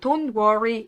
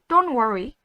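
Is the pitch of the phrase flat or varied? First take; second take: flat; varied. First: The phrase is said on a flat pitch. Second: The phrase is said with rising and falling pitch. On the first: The speaker calls it wrong. "이렇게 안 하고" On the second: The speaker calls it right. "영어는 음이 있다라고 생각하세요"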